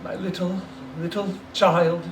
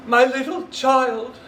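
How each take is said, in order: First: Breaking down. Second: Much higher, louder, slow sobbing cry; breaking down. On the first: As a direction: hold back the sob. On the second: Bob breaking down over his dead son, sobbing cry. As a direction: let the grief burst through. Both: Acted. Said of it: "He broke down all at once".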